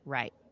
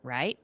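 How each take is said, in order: First: The pitch falls at the end like a statement. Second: The pitch rises at the end like a question. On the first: "sometimes I'll just say it as like" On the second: "sometimes I'll say it as a question"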